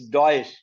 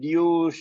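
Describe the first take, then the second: First: The name ends with a 'tch' sound. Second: The name ends with a plain 'sh' sound. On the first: The speaker calls it right. "By the way, it's Deutsch" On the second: The speaker calls it wrong. "you start reading it douche, even if you are able to put T silent"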